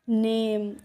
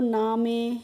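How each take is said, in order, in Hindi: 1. यह 'naym' ऐसे बोला जाता है, एक अक्षर में। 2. यह 'naa-me' ऐसे बोला जाता है, दो अक्षरों में। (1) "ए एम ई को हमें एम करके पढ़ना है" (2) "इस तरीके से पढ़ेंगे तो हमारा प्रोनाउंसिएशन गलत हो जाएगा"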